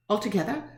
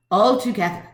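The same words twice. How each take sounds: First: ALTOGETHER as a soft question, rising at the end. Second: ALTOGETHER firm, falling at the end; firm answer. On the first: Woman echoing the attorney's question, ALTOGETHER said questioningly with a rise. Repeats question back, then answers it. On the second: Woman giving in to the attorney, ALTOGETHER stated firmly with a fall. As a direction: lean on ALTOGETHER and let it drop. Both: Acted.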